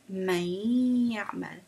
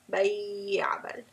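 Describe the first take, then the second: First: It is said with a clear nasal hum. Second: It is said with the nose blocked. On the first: The speaker calls it right. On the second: The speaker calls it wrong.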